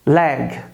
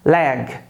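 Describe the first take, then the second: No difference in how they are said.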